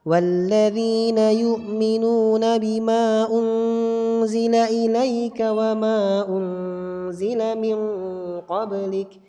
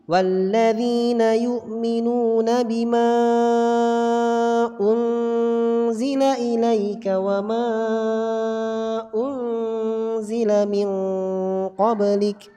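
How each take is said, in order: First: The long vowels are held for two beats. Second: The long vowels are held for four or five beats. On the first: "Ini riwayat Hafiz an Asim ala tariqi Thayyibatin Nashr" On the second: "Kalau tariq Syatibi"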